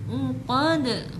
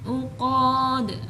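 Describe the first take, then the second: First: The final vowel is short, ending with a bounce. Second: The final vowel is drawn out long. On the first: The speaker calls it right. "qalqalah tanpa dipanjangkan" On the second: The speaker calls it wrong. "biasanya itu ke bawah lagu lama ya, ... bukan seperti itu"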